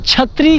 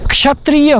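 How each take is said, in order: First: The word begins with a 'ch' sound. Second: The word begins with a 'ksh' sound.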